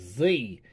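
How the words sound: The letter is said as zee. "you'll get with the American. It's Z"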